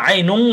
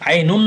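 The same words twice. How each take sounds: First: আইনুন said as "ainung", held in the nose; আইনুন with a ghunnah ending; nasal ng ending. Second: First আইনুন ending on a short clear "n"; আইনুন without nasal hum; plain n ending. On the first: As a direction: hum the last sound of আইনুন as "ng". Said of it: "না বলে আইনুন বলো". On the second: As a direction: close আইনুন with the tongue tip. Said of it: "আইনুন না বলে". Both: Shown as a demonstration.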